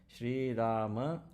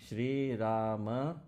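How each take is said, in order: Both takes have the same delivery.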